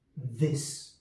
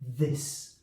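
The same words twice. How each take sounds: First: It begins with th and ends on s. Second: It begins with th and ends on s.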